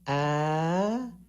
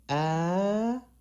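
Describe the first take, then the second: First: The pitch goes up high. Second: The same.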